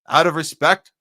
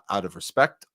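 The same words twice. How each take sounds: First: It is read in the speaker's normal voice. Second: It is read in an imitated put-on voice.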